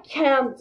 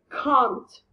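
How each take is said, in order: First: The vowel is not a long back 'ah'. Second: The vowel is a long back 'ah'. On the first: The speaker calls it wrong. "Não é can't" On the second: The speaker calls it right. "é can't. Com A"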